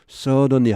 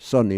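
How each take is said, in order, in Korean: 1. 느리게 말하며, d 소리가 분명합니다. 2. 빠르게 말하며, d 소리가 거의 빠집니다. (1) "천천히 하면 suddenly 하겠죠" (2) "빨리 하면 suddenly, suddenly 이렇게 하겠죠"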